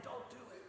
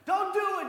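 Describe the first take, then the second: First: Soft, hushed don't; hushed plea. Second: High, loud panicked cry; frantic yell. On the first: Disciples holding Peter's belt, hushed pleading. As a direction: plead under the breath. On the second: Disciples holding Peter's belt, panicked yelling. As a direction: yell to stop him. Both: Retold or imitated.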